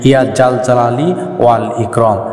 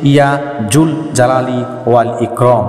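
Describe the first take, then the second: First: The second word is said with an 'a' vowel. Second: The second word is said with a 'u' vowel. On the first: The speaker calls it wrong. "আমরা সাধারণত বলে থাকি" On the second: The speaker calls it right. "প্রকৃত উচ্চারণ হচ্ছে"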